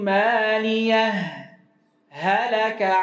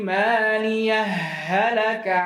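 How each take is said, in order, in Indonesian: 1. Ada jeda singkat yang memisahkan dua bunyi h. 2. Dua bunyi h menyatu tanpa jeda sama sekali. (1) "Bentuk yang pertama al-idhar ... kecuali dengan sakta" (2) "Yang kedua idgham ... tanpa sakta"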